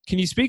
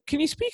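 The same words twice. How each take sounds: First: The voice is lower and deeper. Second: The voice is high-pitched and excited. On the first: The speaker wants to sound more manly. "I'll be a little bit deeper now, more manly" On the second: The speaker is excited. "my voice went so high pitched there"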